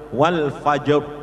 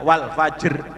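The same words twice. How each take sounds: First: The final r is heavy, with rounded lips. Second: The final r is light, without rounded lips. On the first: The speaker calls it right. "kalau yang tafhim harus wal fajr" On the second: The speaker calls it wrong. "tidak wal fajr"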